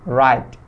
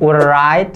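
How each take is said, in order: First: The w sound is left out. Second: The w sound is pronounced. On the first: The speaker calls it right. "Start wordnya dari R. Jadi write" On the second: The speaker calls it wrong. "Bukan write gitu, W-nya nggak dibaca ya"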